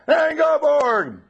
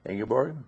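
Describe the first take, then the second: First: The name is shouted very loudly. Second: The name is said at a normal volume.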